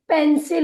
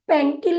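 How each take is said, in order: First: The middle consonant is an S sound. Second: The middle consonant is a K sound. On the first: The speaker calls it right. "क के रूप में ना करके स के रूप में" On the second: The speaker calls it wrong. "पेंकिल नहीं होता है"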